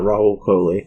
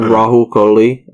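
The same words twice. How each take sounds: First: The name is said plainly without extra emphasis. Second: The name is said with odd heavy emphasis. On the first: The speaker calls it right. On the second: The speaker calls it wrong.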